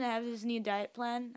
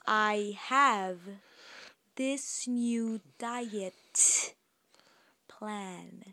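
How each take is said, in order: First: The words are slurred and hard to make out. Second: Each word is articulated clearly and distinctly. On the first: The speaker calls it wrong. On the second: The speaker calls it right.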